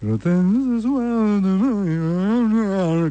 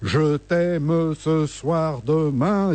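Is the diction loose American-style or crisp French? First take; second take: American-style; crisp French. First: The words are loosely chewed, American style. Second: The words are crisply articulated, French style. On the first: This is the new style that charmed women. "Comme ça, très chewing-gum, très américain" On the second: This is how French singers sang. "Les Français articulent"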